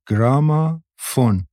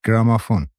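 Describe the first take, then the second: First: گرامافون stretched slowly, in separated parts, pitched up; word drawn out. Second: Said in the usual way. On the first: A narrator's reading. Girl teaching Maryam a new word, گرامافون drawn out slowly.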